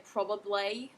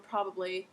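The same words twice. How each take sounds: First: Probably ending in a broad "ay" sound; Australian pronunciation. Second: Said in the usual way. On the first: Shown as a demonstration. Teacher contrasting how Australians say probably. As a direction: say probably with the final vowel stretched to "ay". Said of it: "they would say probably". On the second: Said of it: "If I say the word probably".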